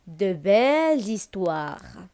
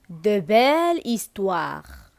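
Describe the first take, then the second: First: "belles histoires" linked with a z sound; liaison. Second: Said in the usual way. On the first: Shown as a demonstration. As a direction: say "belles histoires" as bel-zistwar, slowly. ("belles histoires" بالليِيزون، بصوت الزاي بيناتهم) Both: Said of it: "La liaison".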